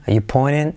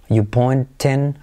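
First: "pointing" as "poinen", no T; T skipped. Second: "pointing" carefully as "poin-ten", T kept; T sounded. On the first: Teacher showing the shortcut, "pointing" with T skipped. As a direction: drop the T in "pointing" after the N. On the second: Teacher giving the full form, "pointing" with T sounded. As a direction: say "pointing" slowly with a clear T. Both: Shown as a demonstration. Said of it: "te puedes saltar la T".

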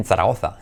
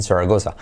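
First: "Zaragoza" with Spanish th sounds; pronunciación española. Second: "Zaragoza" with s sounds and English r; pronunciación inglesa. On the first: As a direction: say "Zaragoza" as in Spain. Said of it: "en Zaragoza". («Zaragoza» con zetas españolas) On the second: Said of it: "especially en Zaragoza". («Zaragoza» con eses y acento inglés) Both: Shown as a demonstration.

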